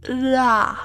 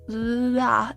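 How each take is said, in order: First: It starts with a sound between R and L. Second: It starts with a sound between R and L.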